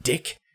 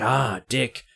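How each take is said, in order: First: "Dick" as a soft, puzzled query; imitating confusion on a soft "Dick"; puzzled question. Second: "Ah, dick" softly, as it clicks; imitating sudden understanding on "Ah, dick"; dawning recognition. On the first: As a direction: ask "Dick" quietly, not knowing the word. Retells puzzled question, then recognition. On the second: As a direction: draw out "Ah", then land "dick" knowingly. Retells the word being understood.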